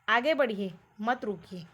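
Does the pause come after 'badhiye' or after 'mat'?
after badhiye. The pause comes after the word badhiye. Go ahead; do not stop. "आगे बढ़िए मत रुकिए बोल रहा है"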